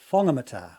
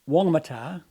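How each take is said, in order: First: The name begins with an F sound. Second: The name begins with a W sound. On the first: "they insist on pronouncing it Whangamata" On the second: "say Wongamata"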